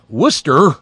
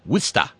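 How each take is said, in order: First: The final R sound is pronounced. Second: The final R sound is dropped. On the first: The speaker is an outsider to the area. The speaker calls it wrong. "you pay attention to the fact that there's an R on the end of that word" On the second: The speaker is a local. The speaker calls it right. "No R's"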